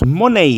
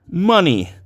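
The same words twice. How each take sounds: First: It is said with Spanish-style vowels. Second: It is said with English vowels. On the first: The speaker calls it wrong. "Tampoco decimos money, no se dice money" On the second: The speaker calls it right. "sino que se dice money"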